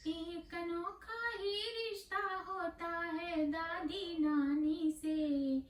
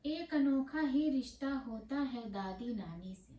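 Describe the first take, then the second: First: Higher, chanted verse with stretched vowels; sung, intone it tunefully, slower, like a children's rhyme; sung, sing-song recitation. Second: Said in the usual way. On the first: Acted. Poet opening her grandmothers poem, lilting chant.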